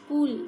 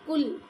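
First: "कुल" with the u held long, as kool. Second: "कुल" with a brief u vowel; short u. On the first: Teacher showing the big u sign, "कुल" with long oo. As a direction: stretch the vowel in "कुल" into a long oo. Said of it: "बड़े ऊ की". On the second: Teacher showing the small u sign, "कुल" with short u. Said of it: "छोटे ऊ की". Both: Shown as a demonstration.

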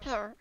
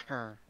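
First: High, squeaky little villager; baby villager voice. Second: Said in the usual way. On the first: Pretend. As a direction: pitch it up like a tiny villager. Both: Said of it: "Do a baby villager".

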